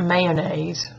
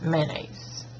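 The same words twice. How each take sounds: First: It begins with a 'may' sound. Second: It begins with a 'man' sound. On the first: "I don't call it" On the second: "Like M A N A I S E"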